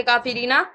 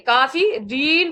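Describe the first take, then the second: First: काफी रीना with the vowel kept at the end; wrong form. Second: काफी रीन slow, ending on silent न; stop at the stop sign. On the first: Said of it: "नहीं पढ़ेंगे". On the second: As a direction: clip the end to रीन. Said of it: "काफी रीना नहीं पढ़ेंगे". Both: Shown as a demonstration.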